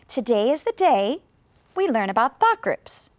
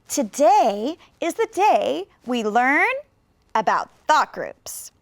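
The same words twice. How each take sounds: First: There is one pause, after the word day. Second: Several pauses split the sentence into short groups. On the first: "Maybe you thought after the word day" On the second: "you could actually add even more thought groups"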